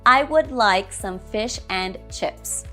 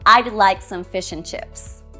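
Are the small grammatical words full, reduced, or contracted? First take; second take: full; contracted. First: Every small word is said in full. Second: Would is contracted to a d sound.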